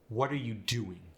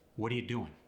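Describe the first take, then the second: First: Every word is pronounced fully. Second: The words are shortened and run together.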